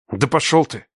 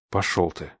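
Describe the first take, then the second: First: Slipped out in anger. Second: Much softer, lower breathed reply; exhaled. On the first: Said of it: "сорвалось у меня". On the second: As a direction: breathe it out staring him down. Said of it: "выдохнул в ответ". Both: A narrator's reading.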